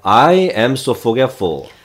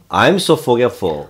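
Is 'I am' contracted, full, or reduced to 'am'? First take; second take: full; contracted. First: Both words 'I am' are said separately. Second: 'I am' is merged into a contracted 'I'm'. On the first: "I am so forgetful 이렇게 해도 되죠" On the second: "덩어리가 뭉치면"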